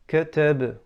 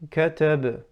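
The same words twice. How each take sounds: First: The first vowel is barely opened, clipped short. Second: The first vowel is barely opened, clipped short.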